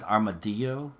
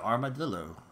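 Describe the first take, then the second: First: The double L is said as a Y sound. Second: The double L is said as an L sound. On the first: The speaker calls it wrong. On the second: The speaker calls it right.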